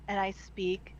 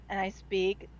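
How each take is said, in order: Both takes have the same delivery.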